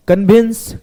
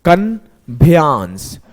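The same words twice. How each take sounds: First: Said in the usual way. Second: कन्वेंस said very slowly as "kan-be-ans", stressing the A-N-C ending; spelling pronunciation. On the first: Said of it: "कन्वेंस पढ़ा जाता है". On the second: Shown as a demonstration. Teacher showing students a spelling trick, slow, deliberate mispronunciation. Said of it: "अब मैं इसको पढ़ा".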